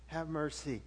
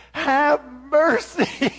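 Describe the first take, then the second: First: Low, much softer "Have mercy" murmured; quiet plea. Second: Loud, high, slow "Have mercy" wailed; begging plea. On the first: Shown as a demonstration. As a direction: say "Have mercy" softly to yourself. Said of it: "you ever been in a situation?". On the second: Retold or imitated. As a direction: beg for mercy like a scared kid. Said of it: "grovel and beg".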